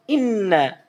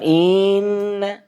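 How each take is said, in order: First: The first vowel is kept short. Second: The first vowel is drawn out into a long vowel. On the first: The speaker calls it right. "Harusnya kan inna" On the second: The speaker calls it wrong. "Bukan inna"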